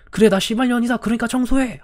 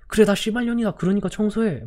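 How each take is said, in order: First: Furious retort. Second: Higher, sharp angry comeback; furious retort. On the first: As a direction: fire it back at him in fury. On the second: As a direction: throw it right back at him. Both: Retold or imitated. Teacher snapping back at the cursing student, furious.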